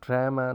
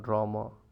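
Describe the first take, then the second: First: The first vowel sounds like the vowel in cat. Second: The first vowel is a broad ah sound. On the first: This is the Canadian way. The speaker calls it right. "you will say it pajama, drama" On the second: This is not the Canadian way. The speaker calls it wrong. "not drama"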